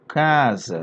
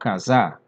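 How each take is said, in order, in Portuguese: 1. A tônica está na primeira sílaba. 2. A tônica está na última sílaba. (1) "eu falo casa. Então esse za aqui é fraco" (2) "Eu não falo casar"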